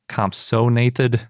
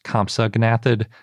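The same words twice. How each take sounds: First: The g before 'nath' is silent. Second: The g before 'nath' is pronounced. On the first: The speaker calls it right. "You don't say the silent G in the middle of Nathus" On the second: The speaker calls it wrong. "it wasn't pronounced Compsognathid"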